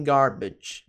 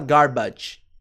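First: "garbage" ending in a short, weak bidge; correct reduced vowel. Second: "garbage" with a full open A in the second syllable; wrong vowel. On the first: Teacher correcting learners, slow "garbage" with short second vowel. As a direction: say "garbage" slowly as gar-bidge. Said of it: "sim garbage". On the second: Teacher warning learners off gar-badge, mispronounced "garbage". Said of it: "Você não vai falar garbage". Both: Shown as a demonstration.

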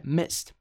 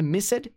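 First: "missed" in one syllable, like "mist"; correct one-syllable ending. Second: "missed" with the ED voiced as a syllable; wrong two-syllable ending. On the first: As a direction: close "missed" on a T, no E sound. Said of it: "é missed". ("missed" numa sílaba, com som de T no fim) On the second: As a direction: break "missed" into MISS-ed. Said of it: "não é missed". ("missed" errado, com o E pronunciado: mis-sed) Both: Shown as a demonstration.

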